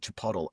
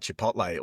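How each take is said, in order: First: The word is pronounced in an altered, imitated way. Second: The word is pronounced the usual way. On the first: This is how someone else says it. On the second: This is the standard name.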